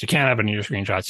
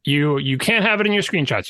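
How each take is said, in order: First: Lower, more deliberate reviewer repeat of "can't"; stern reviewer. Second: Said in the usual way. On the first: Acted. App reviewer laying down the rule to a developer, lower. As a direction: drop the pitch and lay down the rule.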